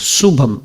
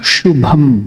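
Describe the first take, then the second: First: The word begins with a plain S sound. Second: The word begins with an SH sound. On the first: The speaker calls it wrong. "Generally, you will pronounce it as Subham" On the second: The speaker calls it right. "it should be pronounced as Sha"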